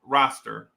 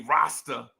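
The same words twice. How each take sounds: First: "roster" with the final r fully sounded; corrected pronunciation. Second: "roster" in a New Jersey accent, final r dropped. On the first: Host clarifying "roster" is not Rastafarian, r pronounced clearly. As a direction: say "roster" carefully, ending in a clear "-ster". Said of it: "No, roster". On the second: Host showing how he says "roster", r-less New Jersey accent. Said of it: "I speak a certain way. So when I say roster". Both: Shown as a demonstration.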